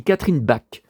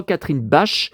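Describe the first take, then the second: First: "Bach" prononcé "bak", avec un k dur final; bonne prononciation. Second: "Bach" prononcé à la française, "bache" avec ch chuintant; mauvaise prononciation. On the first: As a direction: dites "Catherine Bach" en finissant par k. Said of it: "on dit Catherine Bach". ("Bach" terminé par un k net) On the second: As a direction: dites "Catherine Bach" avec un ch comme dans chat. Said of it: "Il paraît qu'on dit pas". ("Bach" en ch doux, façon française) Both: Shown as a demonstration.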